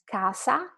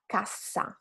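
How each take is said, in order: First: Casa with a short S; long first vowel, light S in casa; single consonant. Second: Cassa with a long, strong SS; double consonant. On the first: Teacher invites students to repeat, casa with short S. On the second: Teacher invites students to repeat, cassa with held SS. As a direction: cut the vowel, hold the SS in cassa. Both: Shown as a demonstration. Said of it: "how different it is".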